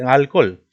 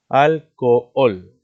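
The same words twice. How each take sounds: First: Said in the usual way. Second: "alcohol" slow and loud, split al-co-ol; syllable by syllable. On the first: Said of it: "Fíjate, alcohol". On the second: Shown as a demonstration. Teacher showing students the two vowels in alcohol, slow split syllables. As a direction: separate both o sounds in "alcohol", loudly. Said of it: "Mira, dos vocales abiertas".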